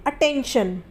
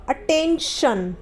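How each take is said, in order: First: Said in the usual way. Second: attention drawn out slowly, each syllable clear; slow careful model. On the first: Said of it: "तो यहाँ पर भी T के बाद ION है". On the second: Shown as a demonstration. Teacher modelling attention slowly for students, careful and drawn out. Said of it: "आई का जो उच्चारण होगा वो अ होगा".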